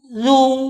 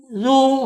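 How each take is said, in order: Both takes have the same delivery.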